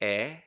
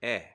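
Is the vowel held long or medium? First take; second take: long; medium. First: The vowel is held for a long time. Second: The vowel is held for a medium time. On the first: "two dots would be the long E" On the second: "three dots is actually going to be the medium"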